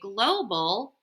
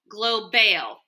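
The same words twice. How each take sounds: First: The second vowel is a weak uh sound. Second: The second vowel is a full A sound. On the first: The speaker calls it right. "but it has the schwa" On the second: The speaker calls it wrong. "doesn't sound right"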